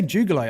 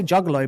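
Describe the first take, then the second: First: Juggalo with an "oo" in the first syllable; juggalo, first vowel like "too"; "joo-galo" pronunciation. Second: Juggalo with a short "uh" in the first syllable; juggalo, first vowel like "jug"; "jug-galo" pronunciation. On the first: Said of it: "they say juggalo". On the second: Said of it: "I say juggalo". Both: Shown as a demonstration.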